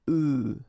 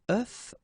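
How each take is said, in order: First: The word ends on a vowel, no f. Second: The word ends with an audible f sound. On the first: It refers to several eggs. "for the plural form here it's œufs" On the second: It refers to one egg. "for the singular form it's œuf"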